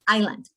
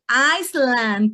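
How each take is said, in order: First: No s sound is pronounced in the middle. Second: An s sound is pronounced in the middle. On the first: The speaker calls it right. "We don't have any S here. It would be island" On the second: The speaker calls it wrong. "Some of our students may say Iceland teacher"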